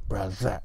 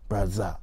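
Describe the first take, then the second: First: The middle consonant sounds like a z. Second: The middle consonant sounds like a z.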